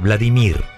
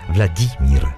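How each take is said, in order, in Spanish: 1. El nombre se dice a la manera española habitual. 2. El nombre se dice a la manera rusa. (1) "la gente dice Vladimir" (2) "en ruso es Vladimir"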